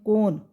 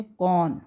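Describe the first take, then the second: First: कौन wrongly said with a closed 'o', like 'kone'; mispronounced o vowel. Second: कौन with an open 'au' vowel, like 'kawn'; correct au vowel. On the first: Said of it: "तो ये गलत हो जाएगा". (कौन को गलत 'कोन' बोलें) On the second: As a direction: say कौन as 'kawn', not 'kone'. वो बोलते हैं कौन. (कौन में खुली 'औ' की ध्वनि) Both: Shown as a demonstration.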